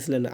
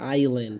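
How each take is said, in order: First: An s sound is pronounced in the middle. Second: No s sound is pronounced in the middle. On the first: The speaker calls it wrong. "এটা অনেক হয়তো বা ইসল্যান্ড পড়েন" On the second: The speaker calls it right. "এস এর উচ্চারণটা হবে না"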